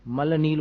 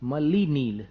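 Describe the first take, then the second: First: The first word ends in l with no vowel. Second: The first word ends in a long i vowel. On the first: The speaker calls it wrong. "मल नील बोलते हैं" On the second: The speaker calls it right. "ल में ई की मात्रा"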